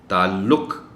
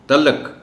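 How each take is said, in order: First: The ain is clearly sounded and 'u' follows the L. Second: The ain is dropped and 'a' follows the L. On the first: The speaker calls it right. "बिल्कुल ऐन को अलग से नुमायां करके पढ़ा जाना चाहिए" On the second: The speaker calls it wrong. "लोग तो इसको बोलते हुए ऐन भी खा जाते हैं और लम पर ज़बर बोल जाते हैं"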